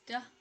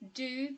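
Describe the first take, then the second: First: The vowel is reduced to a weak uh. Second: The vowel is a full oo sound.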